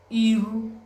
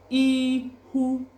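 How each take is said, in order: First: The middle consonant is an r sound. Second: The middle consonant is an h sound. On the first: "Some people say iru, is just dialectal differences" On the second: "H and R is, they are the only difference"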